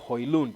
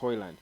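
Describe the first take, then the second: First: The name is said with a Danish-style pronunciation. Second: The name is said with an English-style pronunciation. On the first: The speaker calls it right. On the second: The speaker calls it wrong.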